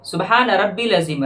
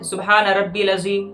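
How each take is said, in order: No difference in how they are said.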